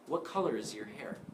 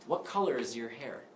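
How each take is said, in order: First: The word 'your' is weak and reduced. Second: The same.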